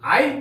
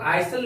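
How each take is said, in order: First: No s sound is pronounced in the word. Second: An s sound is pronounced in the word. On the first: The speaker calls it right. "आई पढ़ेंगे। यहां पर एस silent है" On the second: The speaker calls it wrong. "यहां पर अभी हम लोग आइसल नहीं पढ़ेंगे"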